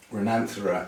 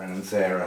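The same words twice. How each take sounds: First: "Renanthera" as reh-NAN-thuh-ruh; Renanthera, second-syllable stress. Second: "Renanthera" as ren-an-THAIR-uh; Renanthera, third-syllable stress. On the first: Grower naming the orchid, "Renanthera" said reh-NAN-thuh-ruh. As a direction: stress NAN in "Renanthera", with a short, weak ending. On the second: Grower offering the other way to say it, "Renanthera" as ren-an-THAIR-uh. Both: Shown as a demonstration. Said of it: "however you want to say it".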